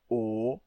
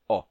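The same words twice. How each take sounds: First: The vowel is said with a closed mouth. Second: The vowel is said with an open mouth. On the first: It comes from a long Latin vowel. "O longo, O" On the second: It comes from a short Latin vowel. "mas o O breve, O"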